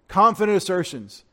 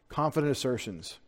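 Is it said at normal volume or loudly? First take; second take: loudly; normal volume. First: It is said loudly, almost screamed. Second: It is said at normal volume.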